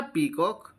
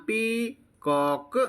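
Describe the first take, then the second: First: Said in the usual way. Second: peacock broken into पी, pause, कॉक; syllable by syllable. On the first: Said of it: "तो क्या बन गया बेटा". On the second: Shown as a demonstration. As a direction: draw out both halves of peacock separately. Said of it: "तो आपको ऐसे बोलना है".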